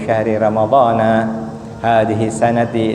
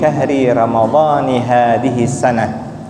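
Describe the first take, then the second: First: Ramadhan ends in a; the last word ends in ti. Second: Ramadhan ends in i; the last word ends in h. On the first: It is the habitual everyday reading. "Kita biasakan" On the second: It follows the grammatical rule for the possessive construction. "yang paling benar bacaannya"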